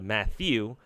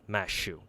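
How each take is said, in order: First: The middle consonant is a 'th' sound. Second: The middle consonant is an 'sh' sound. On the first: "instead of Matthew" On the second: "replace it with an sh"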